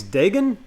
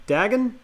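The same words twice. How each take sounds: First: "Dagon" with a long A, weak ending; first vowel of "Dagon" as in day; Dagon as DAY-gun. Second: "Dagon" with short a, weak ending; first vowel of "Dagon" as in bag. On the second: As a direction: say "Dagon" as DAG-un, high and questioning. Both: Shown as a demonstration. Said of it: "I think it's Dagon".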